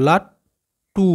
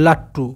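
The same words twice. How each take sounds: First: "লাট্টু" split into লাট, pause, long drawn টু; broken into syllables. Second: Said in the usual way. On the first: Shown as a demonstration. Teacher sounding out the word for pupils, "লাট্টু" in two slow separate parts. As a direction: say লাট, stop, then stretch the টু of "লাট্টু". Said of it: "কেটে কেটে উচ্চারণ করবে". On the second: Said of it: "একসাথে উচ্চারণ করলে".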